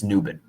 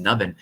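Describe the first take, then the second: First: "Nubin" with a long oo, NOO-bin; corrected pronunciation. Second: "Nubbin" with the short uh of "nub"; first guess at the name. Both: Shown as a demonstration. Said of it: "I think it's Nubin".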